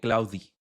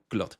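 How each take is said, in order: First: The name ends with an added ee vowel. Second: The name is said as one syllable. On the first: Someone else said it this way. "alguien me dijo eh, Cloudy" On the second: This is how the speaker says it. "Yo lo pronuncio Cloud"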